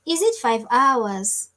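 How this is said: It is said in a Swahili accent.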